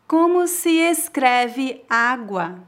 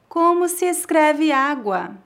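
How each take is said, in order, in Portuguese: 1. Diz-se muito devagar. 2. Diz-se à velocidade normal. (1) "Uma vez bem devagar" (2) "2 vezes mais naturalmente"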